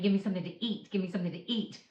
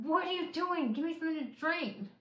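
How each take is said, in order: First: Said in the usual way. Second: Half-hearted exasperated cry, higher; a touch of retold frustration; mild mock anger. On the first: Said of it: "Later on, I found out I was saying". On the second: To her husband who brings bread, a mild mock angry complaint. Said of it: "so mad".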